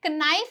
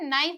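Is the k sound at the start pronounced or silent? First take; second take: pronounced; silent. First: The initial k sound is pronounced. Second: The initial k sound is silent. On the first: The speaker calls it wrong. "इसे नाइफ नहीं बोलते हैं" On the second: The speaker calls it right. "इसे नाइफ बोलते हैं"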